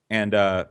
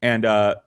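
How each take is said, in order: Both takes have the same delivery.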